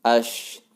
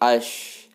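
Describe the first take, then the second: First: The syllable ends with an sh sound. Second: The syllable ends with an sh sound.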